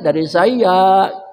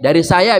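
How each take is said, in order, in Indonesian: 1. Diucapkan dengan suara lembut dan genit. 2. Diucapkan dengan suara biasa dan tegas.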